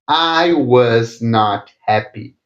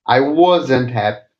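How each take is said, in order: First: Was and not are said as separate words. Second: Was and not are joined into one contracted word.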